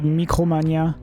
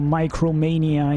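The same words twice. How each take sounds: First: The name is pronounced the French way. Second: The name is pronounced the English way.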